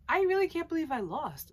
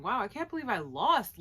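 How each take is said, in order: First: REALLY pushed high and loud, then falling; stress on REALLY. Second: Mildly amazed, a little higher and louder; mild disbelief. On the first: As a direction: hit the word "really" in mock disbelief. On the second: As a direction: voice a loser's stunned thought. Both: Retold or imitated. Pondering his thoughts, thinking.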